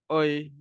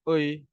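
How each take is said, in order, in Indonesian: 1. Bibir kendur, hasilnya 'oi'. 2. Bibir kendur, hasilnya 'oi'.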